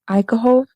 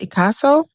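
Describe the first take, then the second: First: The consonant before the last vowel is h. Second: The consonant before the last vowel is s. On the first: The speaker calls it wrong. "I've been calling her Ikaho" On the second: The speaker calls it right. "her name isn't Ikaho. It's Ikaso"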